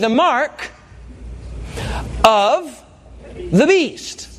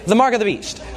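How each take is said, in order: First: It is said slowly, word by word. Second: It is run together quickly like one word.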